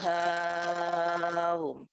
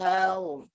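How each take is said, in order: First: The vowel is held long before a softened hamza. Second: The vowel is kept short before a softened hamza. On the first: "Tashil serta tol" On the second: "tashil serta qasr"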